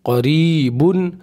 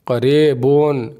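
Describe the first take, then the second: First: क़रीबुन said slowly as qa-ree-bun; careful model क़रीबुन with long ee and u; correct reading. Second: क़रीबुन said as "qareebon" with e and o; slow wrong क़रीबुन, vowels bent to e and o; wrong reading. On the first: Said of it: "पढ़ना है किस तरीके से?". (क़रीबुन को सही "क़रीबुन" पढ़ना) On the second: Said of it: "ये सब गलत है". (क़रीबुन को ग़लत "क़रेबोन" पढ़ना) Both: Shown as a demonstration.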